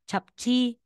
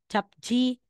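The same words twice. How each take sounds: The two takes are said the same way.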